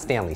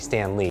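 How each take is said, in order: First: The two syllables run together as one word. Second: The two syllables are kept apart as two words. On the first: The speaker calls it wrong. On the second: The speaker calls it right.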